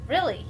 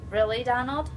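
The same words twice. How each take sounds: First: "Really" falling at the end as an answer; confirming. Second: "Really, Donald?" rising at the end as a question. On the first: Nature guide answering the girl's doubt, "Really" confirmed with a fall. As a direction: say "Really" as a settled statement, pitch dropping. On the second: Girl questioning the nature guide, "Really, Donald?" asked with a rise. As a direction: say "Really, Donald?" with a doubtful upward lift. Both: Acted.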